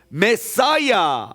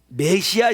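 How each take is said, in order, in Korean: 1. 영어식으로 말해요. 끝이 'saya'예요. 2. 한국식으로 말해요. 끝이 'sia'예요.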